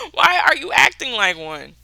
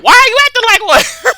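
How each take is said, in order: First: Raised but more controlled, spelled-out question; pointed retort. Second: High, loud comeback breaking into laughter; exasperated yelled retort. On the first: Speaker repeating the comeback to a childish adult, pointed and deliberate. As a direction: repeat it pointedly, less shouted, after a laugh. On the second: Speaker snapping back at a childish adult, high exasperated yell. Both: Retold or imitated.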